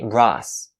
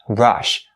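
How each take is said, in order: First: The word ends with an s sound. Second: The word ends with an sh sound. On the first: The speaker calls it wrong. "Please don't say Russ. Russ is wrong" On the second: The speaker calls it right. "make sure you pronounce the sh sound at the end of the word rush"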